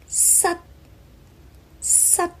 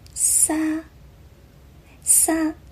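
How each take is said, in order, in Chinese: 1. 这个音节以短促的塞音韵尾结束。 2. 这个音节是开口的，没有塞音韵尾。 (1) "而粤语的发音是撒撒" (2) "我好像听到它的发音是撒撒"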